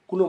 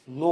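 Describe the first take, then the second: First: The k is pronounced before the n. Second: The k is silent, starting with n. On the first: The speaker calls it wrong. "के N O डब्ल्यूचा उच्चार काय करतात मुलं, क म्हणतात मध्ये कुनो" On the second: The speaker calls it right. "के silent ठेवून नो असं म्हणायचं"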